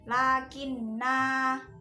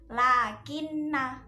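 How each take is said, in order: First: The final vowel is held long. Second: The final vowel is cut short. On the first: The reader stops on this word. "kalau diwakofkan maka dibacanya panjang" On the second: The reader continues without stopping. "Itu kalau diwasolkan"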